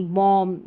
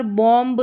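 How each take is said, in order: First: बॉम्ब said as "bom", ending on m; silent b. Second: बॉम्ब with the final b sounded; wrong pronunciation. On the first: Teacher correcting students, बॉम्ब with b silent. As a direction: drop the b from बॉम्ब. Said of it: "बी silent रहता है". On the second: Teacher showing the mistake, final b voiced in बॉम्ब. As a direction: close बॉम्ब on an audible b. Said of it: "तो यहाँ पर बॉम्ब नहीं". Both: Shown as a demonstration.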